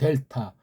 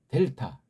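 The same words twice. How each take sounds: First: The word is said flat, without force. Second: The first syllable is said with strong force. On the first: The speaker calls it wrong. "맥 빠지게 하지 마세요" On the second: The speaker calls it right. "앞에다 힘을 주고 발음하면"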